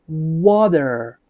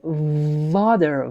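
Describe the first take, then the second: First: The word starts with a W sound. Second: The word starts with a V sound. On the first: The speaker calls it right. "It is W sound" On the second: The speaker calls it wrong. "it is not actually water, V sound"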